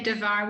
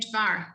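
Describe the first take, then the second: First: A short vowel is sounded between d and v. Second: The d runs straight into the v. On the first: The speaker calls it wrong. "we don't say devar" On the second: The speaker calls it right. "we say dvar"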